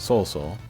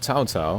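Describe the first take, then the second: First: The name is said with its Japanese reading. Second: The name is said with its Chinese reading. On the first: "In the uh, Japanese it's uh" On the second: "I think that's how you say it in the Chinese"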